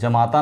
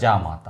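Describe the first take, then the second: First: The first vowel is short, 'ja'. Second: The first vowel is long, 'jaa'. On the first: The speaker calls it wrong. "जमाता नहीं होता" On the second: The speaker calls it right. "जामाता होता"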